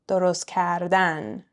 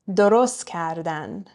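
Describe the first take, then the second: First: The stress falls on the final syllable of the second word. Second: The stress falls on the last syllable of the first word. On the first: It is the infinitive, to make. "infinitives, last syllable" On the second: It is a conjugated form, they made. "we're stressing the last syllable of درست"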